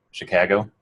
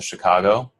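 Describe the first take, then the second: First: Chicago accent, "Chicago" with a flattened "ka" as in cat; local Chicago accent. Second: Said in the usual way. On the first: Shown as a demonstration. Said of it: "there are local accents to Chicago".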